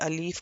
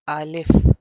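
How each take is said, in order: First: The second vowel is drawn out long. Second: The second vowel is kept short. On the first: The speaker calls it wrong. "कोई अलीफ करके लंबा कर देता है" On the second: The speaker calls it right. "तो इसका असल मखरज क्या है?"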